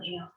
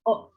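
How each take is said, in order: First: The vowel is read as spelled, 'eh-oh'. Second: The vowel is a single 'oh' sound. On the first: The speaker calls it wrong. "bukan eo" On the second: The speaker calls it right. "tapi teman-teman bacanya oh"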